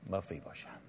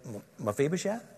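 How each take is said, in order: First: It is said gently, with compassion. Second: It is said as a hesitant question.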